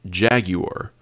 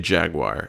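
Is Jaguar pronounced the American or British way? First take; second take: British; American. First: It is pronounced the British way. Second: It is pronounced the American way. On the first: "Jaguar is a British company, and they pronounce it Jaguar" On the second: "we say Jaguar in the United States"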